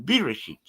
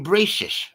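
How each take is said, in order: First: It is said the Hebrew way, ending in -shit. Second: It is said the Yiddish way, ending in -shish.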